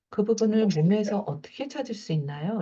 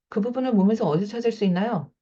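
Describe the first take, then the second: First: The question is asked softly and gently. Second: The question is tossed out bluntly and abruptly. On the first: "이렇게 부드럽게 하는 거랑" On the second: "이렇게 툭 던지는 거랑"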